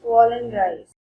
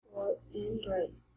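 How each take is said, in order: First: "fall and rise" said firmly and evenly; tone contour spoken. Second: "fall and rise" softer and slower, voice dipping then rising; third tone voiced. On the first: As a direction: state "fall and rise" clearly for the class. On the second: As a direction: let your voice do what "fall and rise" says. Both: Shown as a demonstration. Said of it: "So it's rise".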